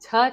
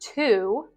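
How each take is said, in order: First: The vowel is reduced to a schwa sound. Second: The vowel is a full oo sound. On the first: "I used the schwa sound" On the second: "I don't pronounce to with the oo vowel"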